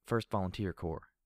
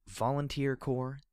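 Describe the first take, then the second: First: Dutiful military recital; reciting by rote. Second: Slow, high questioning echo; puzzled question. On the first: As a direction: rattle it off like a soldier. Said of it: "she said as if reciting the information". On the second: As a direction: ask it back, puzzled. Puzzled question echoing her words. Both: Acted.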